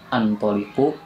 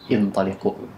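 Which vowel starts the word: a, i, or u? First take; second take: a; i. First: The word begins with an a vowel. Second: The word begins with an i vowel. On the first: The speaker calls it wrong. "bukan antoliku" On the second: The speaker calls it right. "tapi intoliku"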